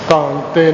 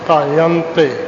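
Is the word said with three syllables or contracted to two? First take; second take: two; three. First: The word is contracted to two syllables. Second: The word has three syllables with a y glide. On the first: The speaker calls it wrong. "ਤਾਂਤੇ ਨਹੀਂ" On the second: The speaker calls it right. "ਤਾਯੰਤੇ ਐਸੇ ਉਚਾਰਨ ਹੈ"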